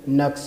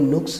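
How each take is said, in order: First: The first vowel is 'a'. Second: The first vowel is 'u'. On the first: The speaker calls it right. "इसका असल दुरुस्त लफ्ज़ जो है वो नक्स है" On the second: The speaker calls it wrong. "हम mostly जो बोलते हैं वो नुक्स है"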